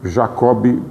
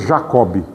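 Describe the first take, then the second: First: The name has its Portuguese pronunciation. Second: The same.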